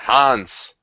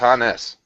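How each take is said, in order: First: The name is said as one syllable. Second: The name is said as two syllables. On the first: The speaker calls it wrong. "the first time I tried to pronounce it, I pronounced it Hans" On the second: The speaker calls it right. "But it's Hannes"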